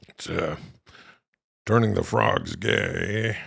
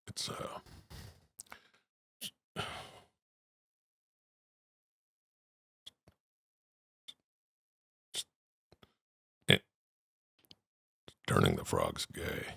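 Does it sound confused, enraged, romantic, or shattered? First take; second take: romantic; shattered. First: It is said in a soft, romantic tone. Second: It is said in a broken, shattered tone.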